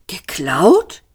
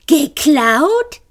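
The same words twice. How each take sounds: First: Said in the usual way. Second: High mocking echo, far above; mocking imitation. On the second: A narrator's reading. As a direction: ape the question in a squeaky voice. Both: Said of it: "äffte Marvin sie nach".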